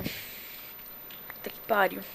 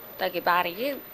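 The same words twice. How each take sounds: First: Slow, breathless pained whisper; toothache. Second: Normal voice, a touch pained; toothache. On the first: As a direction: whisper it through tooth pain. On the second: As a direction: say it aloud, wincing a little. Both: Real, not acted. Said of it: "meu dente tá doendo demais".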